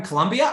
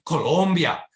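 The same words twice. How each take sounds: First: "Colombia" said as kuh-LUM-bee-uh; English "Colombia" with an UH in the stressed syllable; anglicized Colombia. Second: "Colombia" said as koh-LOHM-bee-ah; Spanish-style Colombia. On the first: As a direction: say "Colombia" like Columbia, with LUM in the middle. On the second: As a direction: round long O sounds in "Colombia". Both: Shown as a demonstration. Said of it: "I would clarify".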